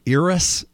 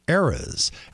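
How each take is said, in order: First: It is not pronounced like the plural of era. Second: It is pronounced like the plural of era. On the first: The speaker calls it wrong. "They're saying Eras and variations of Eras. And it's not" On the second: The speaker calls it right. "It's Eras, as in the plural of era"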